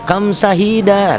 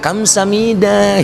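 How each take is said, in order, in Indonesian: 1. Suku kata tengah diucapkan dengan bunyi h. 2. Suku kata tengah diucapkan dengan bunyi m. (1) "Kamsahida sebetulnya itu salah" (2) "harusnya kan Kamsamida"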